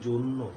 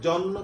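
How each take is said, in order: First: The first vowel is a closed 'o' sound. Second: The first vowel is an open 'aw' sound. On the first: The speaker calls it right. "আমরা কিন্তু বলি জন্য" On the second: The speaker calls it wrong. "জন্য কিন্তু আমরা কখনোই বলি না"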